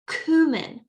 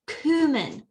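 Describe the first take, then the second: First: It is said in an American accent. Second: The same.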